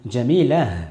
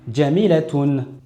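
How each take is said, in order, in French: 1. Le mot se termine par un son h doux. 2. Le mot se termine par un son t suivi d'une terminaison. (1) "j'ai fait un ha sakin" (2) "j'ai bien prononcé le ta marbuta"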